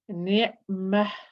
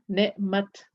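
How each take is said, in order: First: The word ends with a breathy h sound. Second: The word ends with a t sound. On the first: The reader stops on this word. "my breath comes out" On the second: The reader continues past this word. "When continuing reading, I will pronounce it as a ta"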